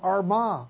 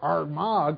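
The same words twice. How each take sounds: First: The name is said in a plain accent. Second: The name is said with an Irish brogue.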